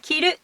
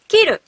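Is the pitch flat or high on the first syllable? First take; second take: flat; high first. First: Pitch starts low, then stays high. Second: Pitch starts high, then drops low. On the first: It means to wear. "flat, to wear, low, high" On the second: It means to cut. "to cut, head high, high, low"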